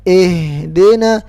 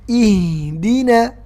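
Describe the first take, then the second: First: The vowels sound like 'e' instead of 'i'. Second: The vowels sound like a clear 'i'. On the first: The speaker calls it wrong. "Banyak yang baca gini" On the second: The speaker calls it right. "Bukan e tapi i"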